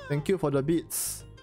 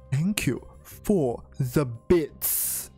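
First: The words are said casually, not clearly articulated. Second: The words are said slowly with careful articulation. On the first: The speaker calls it wrong. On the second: The speaker calls it right.

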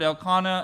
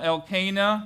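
First: The name is said in a neutral accent. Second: The name is said in a Southern US accent. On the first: "several appropriate pronunciations for that word" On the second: "if you have a southern persuasion, maybe"

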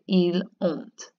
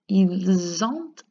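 First: The words are said with no z link. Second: The s links to the vowel as a z. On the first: "If you don't want to make that connection" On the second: "S making its connection to the O makes a good z sound"

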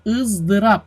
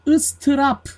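First: The middle consonant is a z sound. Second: The middle consonant is an s sound. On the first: The speaker calls it right. "Bakın S yerine Z harfi olacak" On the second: The speaker calls it wrong. "Istırap değil"

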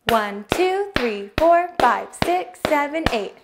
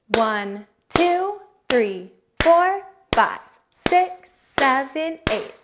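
First: The numbers are counted at a fast pace. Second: The numbers are counted at a steady, medium pace.

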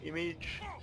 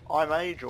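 First: The word begins with an 'ih' sound. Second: The word begins with an 'eye' sound. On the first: The speaker calls it right. "I think it's Image" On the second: The speaker calls it wrong. "if they call it iMage"

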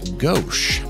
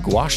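First: The word begins with a plain 'g' sound. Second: The word begins with a 'gw' sound. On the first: The speaker calls it wrong. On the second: The speaker calls it right.

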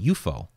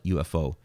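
First: It is said as a single word. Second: Each letter is said separately. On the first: "he just pronounced the whole thing as a word rather than each individual letter" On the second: "Ruppelt didn't call it UFO"

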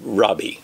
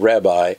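First: The word is said with a Hebrew-style pronunciation. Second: The word is said with the familiar English pronunciation. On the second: "I'm going to pronounce it the way what we're used to"

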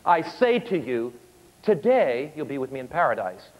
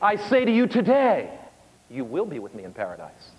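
First: The pause comes before 'today'. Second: The pause comes after 'today'.

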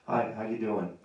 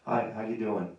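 First: The greeting sounds cool and reserved. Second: The greeting sounds cool and reserved.

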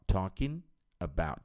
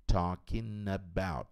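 No difference in how they are said.

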